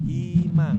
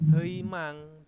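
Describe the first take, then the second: First: The first vowel is a plain 'i'. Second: The first vowel is a gliding diphthong. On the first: The speaker calls it right. "tetapi himang" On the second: The speaker calls it wrong. "bukan heimang"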